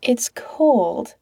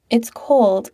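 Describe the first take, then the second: First: Breathy whisper. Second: Said in the usual way. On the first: Acted. Pete missing Patrick on the phone, whispering. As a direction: whisper it to yourself.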